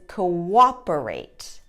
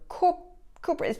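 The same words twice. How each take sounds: First: A W sound links the first two vowels. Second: No W sound links the first two vowels. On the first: The speaker calls it right. "The correct pronunciation" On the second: The speaker calls it wrong. "pronouncing those two O's the same ... They don't make the W sound"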